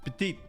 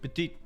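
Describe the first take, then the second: First: It is said in a low voice. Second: It is said in a low voice.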